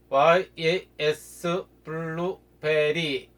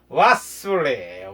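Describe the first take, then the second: First: Every syllable of the name is said separately. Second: The name is squeezed quickly into few syllables. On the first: "이렇게 여러 소리를" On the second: "빠르게 발음하는"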